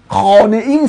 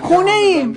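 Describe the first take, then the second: First: The first word is pronounced khaneh, with a full 'a'. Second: The first word is pronounced khooneh, with an 'oo'. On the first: This is the formal written form. "خانه ایم سخته" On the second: This is the casual spoken form. "روون میشه"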